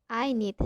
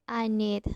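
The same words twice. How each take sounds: The two takes are said the same way.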